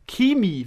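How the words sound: It is said in a Bavarian accent.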